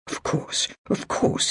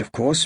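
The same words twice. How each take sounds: First: Soft, breathless near-whisper; placating murmur with a blade at his throat. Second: Said in the usual way. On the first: A narrator's reading. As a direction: murmur it to calm the swordsman. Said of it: "he murmured".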